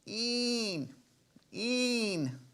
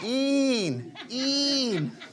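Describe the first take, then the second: First: The moan is said quietly. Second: The moan is said loudly.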